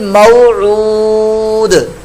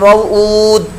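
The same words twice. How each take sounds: First: The final 'd' ends with an echoing bounce. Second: The final 'd' stops flat with no bounce. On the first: The speaker calls it right. "तो वो यूं होगा" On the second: The speaker calls it wrong. "दाल को साकिन तो किया लेकिन कलकला नहीं किया"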